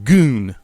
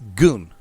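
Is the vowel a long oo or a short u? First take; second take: long oo; short u. First: The vowel is a long oo sound. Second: The vowel is a short u sound. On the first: The speaker calls it wrong. "but not Goon" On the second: The speaker calls it right. "It's Gun. Big difference there"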